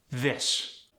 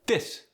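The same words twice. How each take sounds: First: Said in the usual way. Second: "This" as dis; Khmer-style "This", starting on a D. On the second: Shown as a demonstration. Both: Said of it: "often replaced with a D or a T".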